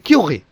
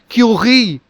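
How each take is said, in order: First: The vowel is kept short. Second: The vowel is held long. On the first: The speaker calls it right. "it should be Q, The I is sound uh, is, is short" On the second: The speaker calls it wrong. "it should not be Q"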